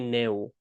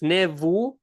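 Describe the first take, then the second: First: The word is said in a shortened form. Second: The word is said in its full form. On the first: This is what people usually say. "people usually say Neu" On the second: This is the standard form of the number. "it's Nevu"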